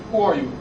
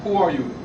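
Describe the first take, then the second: No difference in how they are said.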